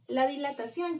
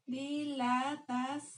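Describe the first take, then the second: First: Said in the usual way. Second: Drawn out syllable by syllable, Dilatación; slowly spelling out Dilatación for notes; slow dictation. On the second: Shown as a demonstration. Teacher dictating the new word to students, drawn out slowly. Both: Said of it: "con acento en la O".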